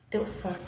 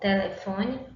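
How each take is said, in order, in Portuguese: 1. A palavra é encurtada, com as vogais engolidas. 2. Todas as sílabas são ditas com vogais plenas.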